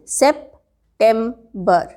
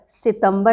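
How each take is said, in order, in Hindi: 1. यह अंग्रेज़ी 'september' की तरह बोला गया है। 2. यह हिंदी 'sitambar' की तरह बोला गया है। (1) "सेप्टेम्बर लिख लीजिए" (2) "सितंबर नहीं"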